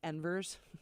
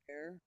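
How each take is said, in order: First: The word is said with an English pronunciation. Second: The word is said with a French pronunciation. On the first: The speaker calls it wrong. "I totally would have been like" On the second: The speaker calls it right. "he pronounced it in a beautiful French way"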